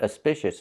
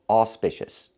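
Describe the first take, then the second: First: The first vowel is an uh sound. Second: The first vowel is an aw sound. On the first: The speaker calls it wrong. "It's not auspicious" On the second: The speaker calls it right. "it's auspicious. The A U makes the aw sound"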